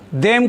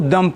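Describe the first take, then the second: First: The word has a full, clear vowel. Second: The word has a short, weak vowel. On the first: The speaker calls it wrong. "देम नहीं पढ़ना उसको" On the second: The speaker calls it right. "देम को दम पढ़ते हैं"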